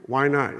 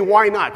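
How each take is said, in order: First: Said in the usual way. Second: Loud demanding why not. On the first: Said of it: "what would they say". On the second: Retold or imitated. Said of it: "They'd say".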